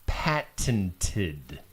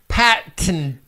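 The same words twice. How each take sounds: First: The word is said with crisp, careful consonants. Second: The word is said casually, consonants softened.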